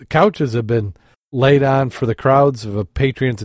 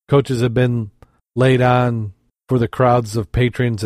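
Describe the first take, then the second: First: "couches" with an OW vowel, as in ouch; "couches" said clearly with OW, not OH; corrected word. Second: "Coaches" said with a long O in place of "couches"; "Coaches" with an OH vowel; misread word. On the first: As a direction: correct yourself to "couches", rhyming with pouches. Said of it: "oh, couches. I said coaches". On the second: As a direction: slip and say "Coaches", rhyming with roaches. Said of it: "I said coaches". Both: Real, not acted.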